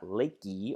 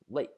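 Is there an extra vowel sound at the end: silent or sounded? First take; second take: sounded; silent. First: An extra vowel is sounded after the k. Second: The word ends on the k with no vowel. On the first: The speaker calls it wrong. "It's not lakey" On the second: The speaker calls it right. "it's just lake"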